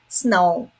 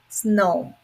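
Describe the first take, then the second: Both takes have the same delivery.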